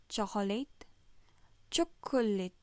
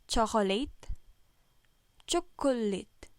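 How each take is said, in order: Both takes have the same delivery.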